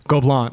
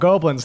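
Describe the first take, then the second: First: It is said with a French pronunciation. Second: It sounds like the English word goblins. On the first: The speaker calls it right. "and they're like Gobelin" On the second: The speaker calls it wrong. "I was like, oh, goblins"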